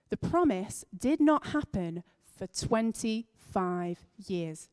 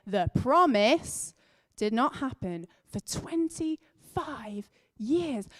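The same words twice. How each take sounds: First: "The promise did not happen for twenty-five years" said slowly, leaning on "not"; emphasizing the words. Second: "The promise did not happen for twenty-five years" stretched very slow, a strong push on "not"; emphasized repeat. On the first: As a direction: stress "not" in "did not happen", at an unhurried pace. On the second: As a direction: drag out every word and punch "not". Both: Shown as a demonstration. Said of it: "Gonna say that again".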